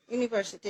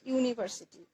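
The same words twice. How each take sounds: First: university said slowly, syllable by syllable, starting with a clear "yu"; drawn out like a teacher's model word; slow model pronunciation. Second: Said in the usual way. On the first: Shown as a demonstration. (ধীরে, স্পষ্ট করে "university" উচ্চারণ) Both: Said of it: "উচ্চারণটা হচ্ছে university".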